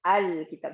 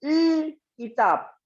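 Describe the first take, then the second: First: It starts with a vowel before the L. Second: It starts directly with the L consonant. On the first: The added hamza makes it possible to start the word. The speaker calls it right. "Datanglah dia. Al" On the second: Starting with a vowelless consonant is impossible in Arabic. The speaker calls it wrong. "Kalau enggak, enggak bisa"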